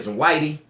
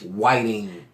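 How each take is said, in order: First: The word ends in an ee sound. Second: The word ends in an ing sound. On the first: This is the everyday community way of saying it. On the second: This is the spelled-out standard form. "It's W H I T I N G"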